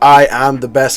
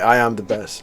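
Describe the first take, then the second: First: It is said at full, steady volume. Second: The volume drops off toward the end.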